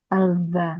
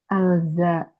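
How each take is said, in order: Both takes have the same delivery.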